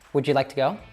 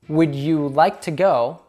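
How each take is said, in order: First: The d and y merge into a j sound. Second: The d and y sounds stay separate.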